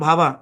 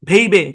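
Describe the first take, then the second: First: The first vowel sounds like 'ah'. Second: The first vowel sounds like 'ay'. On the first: The word keeps its native pronunciation. The speaker calls it right. "আমার উচ্চারণ তো ভাবা" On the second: English spelling rules are forced onto a foreign word. The speaker calls it wrong. "সে যদি pronunciation rule মিলায় জোর কইরা"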